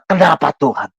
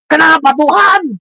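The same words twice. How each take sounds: First: The question is asked in a mild, lower pitch. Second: The question is asked in a very rude tone.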